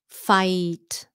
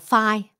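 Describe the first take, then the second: First: The vowel sounds like Vietnamese 'may'. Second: The vowel sounds like Vietnamese 'phai'. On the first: The speaker calls it right. "That's the way you say it" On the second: The speaker calls it wrong. "Không phải là phai"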